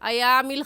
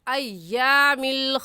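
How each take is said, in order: First: The y sound is short and single. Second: The y sound is doubled and held. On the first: The speaker calls it wrong. "अयामिल खालिया गलत है" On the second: The speaker calls it right. "सही है अय्यामिल खालिया"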